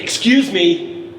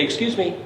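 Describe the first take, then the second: First: "excuse me" drawn out slowly and louder, not meant; New York excuse me. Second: Said in the usual way. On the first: Shown as a demonstration. Composer showing kids the New York "excuse me", drawn out and louder. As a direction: stretch "excuse me" out slow and loud, like get out of my way. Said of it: "In New York, you say". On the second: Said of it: "Most places you say".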